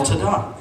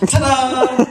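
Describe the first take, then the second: First: Mock-triumphant ta-da, pitched up; yelled ta-da. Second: High, drawn-out triumphant ta-da; yelled ta-da. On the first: Comedian showing his switch for bad make-outs, mock yell. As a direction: sing out a showy ta-da. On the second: Acted. Comedian rescuing a terrible make-out, yelled reveal. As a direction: belt out a big showman's ta-da.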